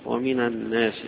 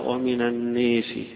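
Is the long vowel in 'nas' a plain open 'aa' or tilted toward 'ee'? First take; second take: open aa; toward ee. First: The long vowel is a plain open 'aa'. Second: The long vowel is tilted toward 'ee'. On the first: "الجمهور على الفتح فيها" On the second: "ومن الناس قرأه فيها إمال"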